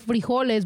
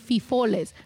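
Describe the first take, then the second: First: The word is said with its r and j sounds. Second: The r and j sounds are replaced by f sounds. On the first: The speaker calls it right. "because I wanted frijoles" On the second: The speaker calls it wrong. "but I would say fifoles"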